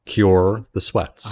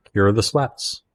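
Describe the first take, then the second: First: Each word stretched out slowly; slow insistent plea. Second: Said in the usual way. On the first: Acted. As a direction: drag out "Cure the sweats" slowly, insistent. Repeated request, dragged out.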